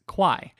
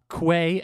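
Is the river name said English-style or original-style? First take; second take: English-style; original-style. First: The name is said the English speakers' way. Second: The name is said in its original local way. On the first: The speaker calls it wrong. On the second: The speaker calls it right.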